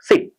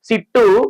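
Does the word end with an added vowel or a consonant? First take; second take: consonant; added vowel. First: The word ends cleanly on the final consonant. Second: An extra vowel is added after the final consonant. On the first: The speaker calls it right. "Pronunciation ఎలా చేయాలంటే" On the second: The speaker calls it wrong. "దీర్ఘాలను English పదాలకు కలపకూడదు"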